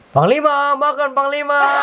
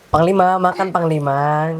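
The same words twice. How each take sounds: First: It is shouted loudly. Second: It is said calmly, without shouting.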